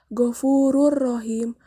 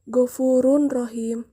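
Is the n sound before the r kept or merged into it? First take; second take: merged; kept. First: The n sound merges into the r, unnasalized. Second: A clear n sound is heard before the r. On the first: The speaker calls it right. "menjadi Ghafurur Rohim" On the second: The speaker calls it wrong. "bukan Ghafurun Rohim"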